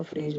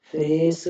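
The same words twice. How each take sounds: First: "फ्रेज" ending in j; correct j sound. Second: "फ्रेश" said louder as fres, with plain s; wrong s sound. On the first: Teacher giving the right phrase, j-ending pronunciation. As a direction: say "फ्रेज" with a voiced last consonant. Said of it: "फ्रेज होगा". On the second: Teacher showing the mistake in phrase, loud s-ending mispronunciation. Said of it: "फ्रेश नहीं होगा". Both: Shown as a demonstration.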